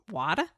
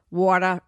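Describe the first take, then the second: First: Said in the usual way. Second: Water said the Boston way, wah-tuh, no r; Boston accent. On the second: Real, not acted. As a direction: slip into a Boston drawl on water. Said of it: "You just slipped into your Boston".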